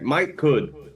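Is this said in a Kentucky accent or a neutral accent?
neutral. It is said without a Kentucky accent.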